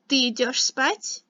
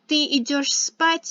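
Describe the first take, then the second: First: It is said with question intonation. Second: It is said with statement intonation. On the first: Are you going to sleep? "is a question" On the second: You are going to sleep. "is a statement"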